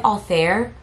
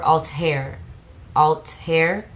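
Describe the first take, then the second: First: "Altair" with the middle as a soft TH, "al-THAIR"; soft TH pronunciation. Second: "Altair" broken as "alt-HAIR", T then breathed H; split T-H pronunciation. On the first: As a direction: say "Altair" like "all-thair", TH as in "thin". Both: Shown as a demonstration. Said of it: "Is it Altair or Altair?".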